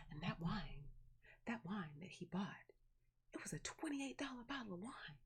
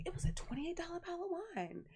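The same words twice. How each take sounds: First: Soft, whispery boast imitating aunt; mock hushed awe. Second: High, fast imitation of gushing aunt; mock excited boast. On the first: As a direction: drop to a reverent near-whisper, imitating a boast. Acts aunt boasting about pricey wine. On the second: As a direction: repeat it high and quick, hamming up the boast. Acts aunt repeating the boast excitedly.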